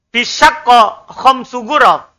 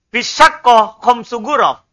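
No difference in how they are said.

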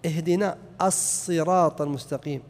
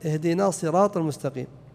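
First: The ṣād sound is held long and doubled. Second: The ṣād sound is short and single. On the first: The speaker calls it right. "الصاد مشددة" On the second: The speaker calls it wrong. "فلو قال اهدنا صراط المستقيم"

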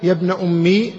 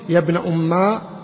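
First: The phrase ends in a long i vowel. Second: The phrase ends in a long a vowel. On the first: "بالياء" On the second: "بالألف"

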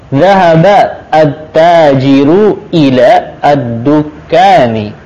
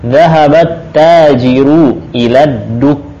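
First: Each word is separated, with connecting vowels pronounced. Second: The words run together with the connecting vowels dropped. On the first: The speaker calls it wrong. "malah kurang bagus kalau kita putus-putus" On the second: The speaker calls it right. "bagusnya memang bacanya bersambung terus"

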